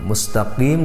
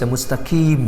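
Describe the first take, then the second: First: The q is made deep in the throat. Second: The q sounds like a plain k. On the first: The speaker calls it right. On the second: The speaker calls it wrong.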